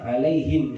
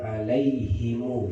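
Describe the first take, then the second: First: The word ends on a bare m sound. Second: The word ends with an added u vowel.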